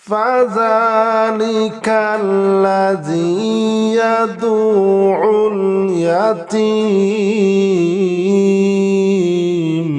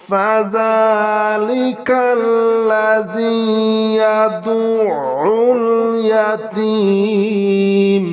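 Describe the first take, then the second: The two takes are said the same way.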